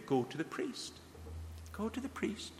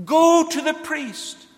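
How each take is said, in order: First: Hushed musing. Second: Loud, slow, incredulous repeat of the order; exclaimed command. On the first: Echoing Jesus' command, musing aloud. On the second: Preacher to congregation, mocking how foolish the order seems, loud and slow. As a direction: throw the command out as if it were absurd. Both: Retold or imitated.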